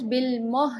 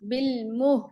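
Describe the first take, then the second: First: The vowel is said with little lip rounding. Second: The vowel is said with well-rounded lips. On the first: The speaker calls it wrong. "बिलमुह नहीं" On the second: The speaker calls it right. "मुह और अच्छे से गोल होंगे"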